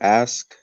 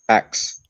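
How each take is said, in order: First: The S sound comes before the K sound. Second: The K sound comes before the S sound. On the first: "The word ask" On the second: "we usually say axe. We like an axe instead of pronouncing the K"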